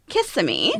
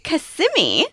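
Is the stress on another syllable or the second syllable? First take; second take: another syllable; second syllable. First: The stress falls away from the second syllable. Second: The stress falls on the second syllable. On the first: The speaker calls it wrong. "because I was calling it Kissimmee" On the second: The speaker calls it right. "So the emphasis is on the sim"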